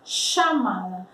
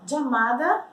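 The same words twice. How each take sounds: First: The first sound is stronger and harsher. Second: The first sound is like English j. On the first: "mais forte o som" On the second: "como se a gente falasse jeans"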